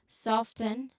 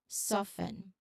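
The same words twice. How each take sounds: First: The T sound is clearly pronounced. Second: The T sound is left silent. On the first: "Soften with T" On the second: "without the T"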